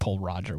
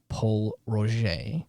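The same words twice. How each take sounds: First: The name is pronounced just as spelled. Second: The name is not pronounced as spelled. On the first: The speaker calls it wrong. "I said Paul Roger, which apparently is not how it's, it's that's how it's spelled" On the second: The speaker calls it right. "I will I have to do a little make good because I I uh I pronounced it incorrectly"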